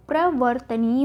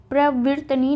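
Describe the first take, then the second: First: प्रवर्तनीय with "vart"; प्रवर्तनीय, short a after v; correct form shown. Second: प्रवृतनीय with "vrit"; प्रवृतनीय, i sound after v; wrong form shown. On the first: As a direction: say प्रवर्तनीय as pra-var-ta-nīya. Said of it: "क्या होता है?". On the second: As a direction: say प्रवृतनीय as pra-vrit-nīya. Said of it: "नहीं होता". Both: Shown as a demonstration.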